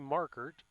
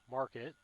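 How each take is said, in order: First: The name is said as Markert. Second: The name is said as Market. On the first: This is the actual form of the name. "It's really Markert" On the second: This is the form the children prefer. "The kids prefer Market"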